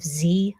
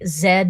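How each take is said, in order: First: The letter is named the American way. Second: The letter is named the British way. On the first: The speaker calls it right. "instead of Z" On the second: The speaker calls it wrong. "when you guys say Z"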